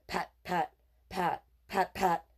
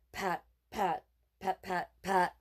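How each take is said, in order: Both takes have the same delivery.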